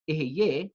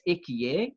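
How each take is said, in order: First: The middle consonant is an h sound. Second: The middle consonant is a k sound. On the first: It is the actual form of the divine name. "which is actually the correct pronunciation" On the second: It avoids saying the divine name. "I've pronounced it as Ekiye"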